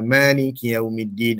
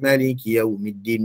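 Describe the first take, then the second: First: The first vowel is said long. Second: The first vowel is said short.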